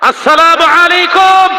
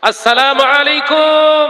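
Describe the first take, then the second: First: It is said loudest of all. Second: It is said louder than normal.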